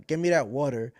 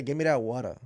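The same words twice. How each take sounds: First: "water" with an American r ending; American-style "water". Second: "water" ending in an open ah, no r; island-style "water". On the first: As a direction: round off "water" with an r sound. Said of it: "I can't say". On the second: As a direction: say "water" as "wata". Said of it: "I'm gonna say". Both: Shown as a demonstration.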